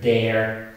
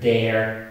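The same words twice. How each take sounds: First: The r after the vowel is clearly pronounced. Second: The same.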